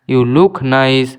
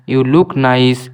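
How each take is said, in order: Both takes have the same delivery.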